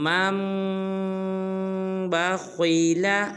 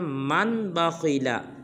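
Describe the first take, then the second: First: The m sounds merge with nasalization, no n heard. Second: A separate n sound is heard before bakhila. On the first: The speaker calls it right. "जब हमज़ा को मीम मुशद्दद के साथ मिलाएंगे तो गुन्ना करेंगे" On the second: The speaker calls it wrong. "ये बिल्कुल गलत है"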